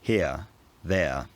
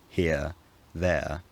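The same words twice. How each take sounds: First: The words are said in a Cockney accent. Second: The words are said in an RP accent. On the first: "a Cockney speaker might have said" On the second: "An R P speaker in nineteen fifty might have said"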